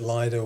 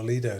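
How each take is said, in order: First: "Lido" pronounced LIE-doh. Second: "Lido" pronounced LEE-doh. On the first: Guest wondering about southern usage, Lido as LIE-doh. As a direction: give "Lido" an eye vowel. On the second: Guest offering the other version, Lido as LEE-doh. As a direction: give "Lido" a long ee vowel. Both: Shown as a demonstration. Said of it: "is it Lido or Lido down south".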